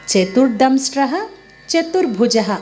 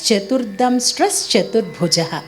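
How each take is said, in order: First: The first word ends with a breathy h sound. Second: The first word ends with an s sound. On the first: The words are said separately. "విడదీసినప్పుడు" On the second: The words are joined in one flowing line. "కలిపి పాడేటప్పుడు ఆ విసర్గ లేకుండా చ అని పలకాలి"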